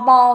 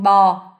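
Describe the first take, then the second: First: The syllable is said on a level tone. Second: The syllable is said on a low falling tone.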